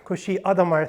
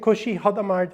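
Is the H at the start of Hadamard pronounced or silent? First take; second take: silent; pronounced. First: The H at the start of Hadamard is silent. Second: The H at the start of Hadamard is pronounced. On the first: The speaker calls it right. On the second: The speaker calls it wrong.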